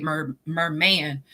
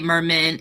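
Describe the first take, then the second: First: Merman said slowly and stretched out, each syllable drawn; slow stressed correction. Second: Said in the usual way. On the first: Shown as a demonstration. Repeating the friend's word, merman said slow and drawn out. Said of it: "because you said mermaid, merman". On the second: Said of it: "because you said mermaid".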